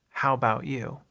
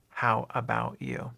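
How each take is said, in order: First: "How about you?" with you clipped to "u", relaxed; shortened version. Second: Said in the usual way. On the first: Shown as a demonstration. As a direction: run together, you said as "u". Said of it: "usually what you'll hear is the shortened version". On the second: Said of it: "instead of".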